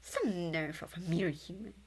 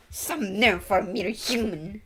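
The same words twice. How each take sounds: First: Said in the usual way. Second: Slow, louder, put-on proud sneer; haughty character voice. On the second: Streamer voicing a proud character looking down on a human, slow haughty sneer.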